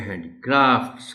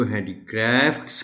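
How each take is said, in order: First: हैंडीक्राफ्ट्स with open long AA, handi-KRAAFTS; broad vowel in the stressed क्राफ्ट्स of हैंडीक्राफ्ट्स; long AA variant. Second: हैंडीक्राफ्ट्स with flat A, handi-KRAEFTS; variant pronunciation demo. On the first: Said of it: "इसको हैंडीक्राफ्ट्स". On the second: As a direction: say the last vowel of हैंडीक्राफ्ट्स as in "cat". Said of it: "इस confusion का शिकार होते हैं". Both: Shown as a demonstration.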